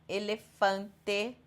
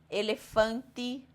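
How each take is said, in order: No difference in how they are said.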